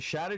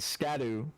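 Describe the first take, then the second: First: The word begins with an 'sh' sound. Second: The word begins with an 'sk' sound. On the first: The speaker calls it right. "I should explain why I'm pronouncing it like that" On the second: The speaker calls it wrong. "on my first playthrough I called it the Scadu tree"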